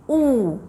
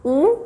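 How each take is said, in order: First: ऊ stretched into a long "oo" as in moon; long vowel ऊ. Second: ऊ cut short, a brief "u" as in book; short vowel ऊ. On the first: Teacher contrasting it with the short vowel, a long drawn-out ऊ. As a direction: hold ऊ long. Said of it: "long vowel sound में है". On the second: Teacher recalling the short vowel sound, a brief ऊ. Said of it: "short vowel sound में था". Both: Shown as a demonstration.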